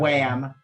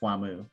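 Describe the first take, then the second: First: The name is said the usual English way. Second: The name is said the Japanese way.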